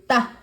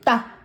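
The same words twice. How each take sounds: No difference in how they are said.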